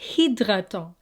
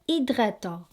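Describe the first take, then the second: First: The h at the start is pronounced. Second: The h at the start is silent. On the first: The speaker calls it wrong. "not hydratant" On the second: The speaker calls it right. "So silent H"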